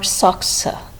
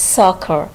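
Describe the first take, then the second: First: The middle consonants are a K then S sound. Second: The middle consonant is a single K sound. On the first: The speaker calls it wrong. "it's not soxa" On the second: The speaker calls it right. "We pronounce both the letter C as a single K sound"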